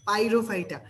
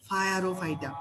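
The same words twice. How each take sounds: First: Said in the usual way. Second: ফায়ারোফাইটা slowly, with English "fire" at the front; deliberately distorted pronunciation. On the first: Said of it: "পাইরোফাইটা উচ্চারণ করব". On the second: Shown as a demonstration. Tutor recapping the trick, ফায়ারোফাইটা said slowly as "fire-o-phyta". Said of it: "উচ্চারণ করব ফায়ার ও ফাইটা".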